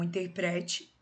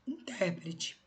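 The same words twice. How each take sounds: First: Interprete with stress on pre; in-ter-PRE-te, lean on pre. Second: Intérprete with stress on tér, falling; in-TÉR-prete, hit tér. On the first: (interprete, com força no PRE) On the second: (intérprete, com força no TÉR) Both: Shown as a demonstration. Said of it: "Então".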